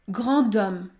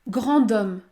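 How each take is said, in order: No difference in how they are said.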